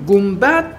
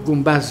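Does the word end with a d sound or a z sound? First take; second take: d; z. First: The word ends with a d sound. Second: The word ends with a z sound. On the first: "گنبد با دال الان تلفظ میکنیم" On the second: "ما همون گنبز میکنیم، با زال"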